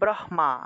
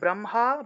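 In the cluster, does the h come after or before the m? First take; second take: before; after. First: The h is said before the m. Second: The m is said before the h. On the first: The speaker calls it wrong. "অনেকে হটাকে আগে উচ্চারণ করে ... কিন্তু এটা আসলে ঠিক না" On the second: The speaker calls it right. "স্পর্শ বর্ণকে আগে উচ্চারণ করতে হয়। তাহলে"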